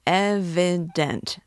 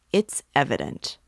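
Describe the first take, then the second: First: "evident" broken into distinct, stressed syllables; emphatic. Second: Said in the usual way. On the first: A narrator's reading. Young law student insists something is wrong, "evident" stressed syllable by syllable.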